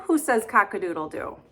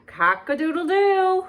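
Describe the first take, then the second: First: Said in the usual way. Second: High, loud cock-a-doodle-doo crowed like a rooster. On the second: Acted. Reading a farm book to children, crowing like a rooster. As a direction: crow it out for the kids.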